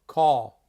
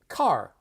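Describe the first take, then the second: First: Said in a New York accent with rounded vowel. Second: Said in a Los Angeles accent with clear r. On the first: "New York" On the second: "so Los Angeles"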